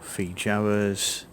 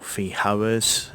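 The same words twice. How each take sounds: First: The j is a soft English-style sound. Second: The j is a harsh throaty Spanish sound.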